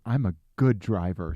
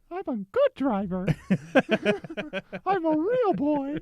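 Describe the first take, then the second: First: Said in the usual way. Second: High, squeaky little cartoon voice; Jiminy Cricket voice. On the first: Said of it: "I'm a good driver" sticker". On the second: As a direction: chirp it like a tiny cartoon cricket. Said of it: "bizarrely good Jiminy Cricket impression".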